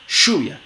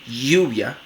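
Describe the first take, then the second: First: The first sound is a voiceless sh. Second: The first sound is a firm, frictional y. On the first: "como fricativa postalveolar sorda" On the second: "como una fricativa palatal sonora"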